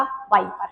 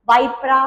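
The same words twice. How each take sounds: First: वाइपर said plainly, ending on र with no added vowel, lower and softer; proper pronunciation. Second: वाइपरा said with an extra final आ, वाइ-प-रा; mnemonic pronunciation. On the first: Teacher giving the real name after the trick, plain वाइपर. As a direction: drop the trick and say वाइपर normally. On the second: Teacher giving the memory trick for viper, playful drawn-out वाइपरा. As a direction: stretch वाइपरा to end on a clear रा sound. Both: Shown as a demonstration. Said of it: "वाइपरा, वाइपर".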